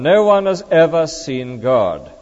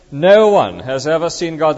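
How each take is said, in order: First: Slow, weighty reading of the verse. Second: No punched, louder, the line hammered home; underlined, stress on No. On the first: Preacher reading the verse to the congregation slowly. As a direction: lay each word down slowly. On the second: Preacher repeating the verse to stress No. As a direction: hit "No" hard to underline it. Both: Shown as a demonstration. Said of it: "Let me repeat it and underline it".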